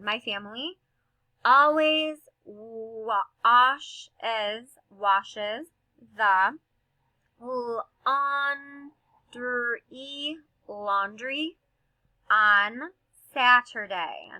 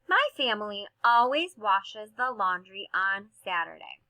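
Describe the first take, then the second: First: It is read slowly, sounding out each word. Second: It is read quickly and smoothly as one phrase. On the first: "We will sound it out. We're going to decode first" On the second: "Let's read this quickly with fluency"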